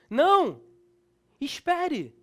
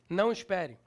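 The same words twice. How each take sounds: First: There is a pause between the two words. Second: The two words run together without a pause.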